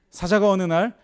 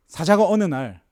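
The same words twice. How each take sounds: The two takes are said the same way.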